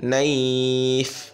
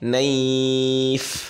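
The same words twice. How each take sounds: First: The word ends on a bare consonant. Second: The same.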